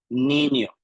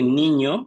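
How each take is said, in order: First: The middle consonant is a plain n. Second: The middle consonant is a palatal ñ. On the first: "dicen niño" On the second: "en vez de niño"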